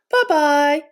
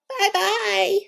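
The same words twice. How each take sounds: First: It is said in a medium voice. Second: It is said in a high, squeaky voice.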